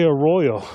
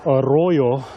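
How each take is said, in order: First: The R sounds are plain, not rolled. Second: The R sounds are rolled with a trill. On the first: The speaker calls it wrong. "the way I say arroyo" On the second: The speaker calls it right. "he said it correctly, you know, arroyo... you got to roll those R's"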